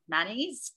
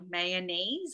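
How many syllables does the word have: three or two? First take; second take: two; three. First: The word is said with two syllables. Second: The word is said with three syllables. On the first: "The two syllable" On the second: "The red is with three syllables"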